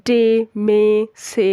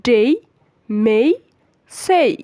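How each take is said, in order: First: "ডে, মে, সে" each with a short pure e; wrong short vowels. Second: "ডেই, মেই, সেই" each drawn into an ey glide; correct glided vowels. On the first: Teacher showing non-words to learners, short wrong vowels. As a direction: list "ডে, মে, সে" without any y glide. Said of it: "এরকম কোনো শব্দ নেই". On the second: Teacher correcting the short forms, emphatic glided vowels. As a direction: stress "ডেই, মেই, সেই" with a clear final y sound. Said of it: "এটা সব কিছুই শুদ্ধ উচ্চারণ হচ্ছে". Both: Shown as a demonstration.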